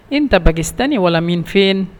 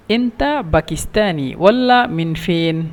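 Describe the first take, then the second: First: Said in the usual way. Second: Slow, careful teaching repeat; each word drawn out for learners; slow demo. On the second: Shown as a demonstration. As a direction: spell it out slowly for the class.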